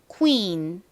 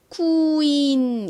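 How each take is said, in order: First: The word is said quickly in one go. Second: The word is drawn out slowly. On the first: The speaker calls it right. "빨리 연결해 주셔야 됩니다" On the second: The speaker calls it wrong. "너무 느리게 queen 이렇게 하시면 안 되고요"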